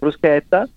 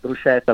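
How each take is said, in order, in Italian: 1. La parola è detta con la pronuncia italiana. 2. La parola è detta con una pronuncia straniera sbagliata. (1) "al posto di bruschetta" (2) "bruschetta al posto di bruschetta"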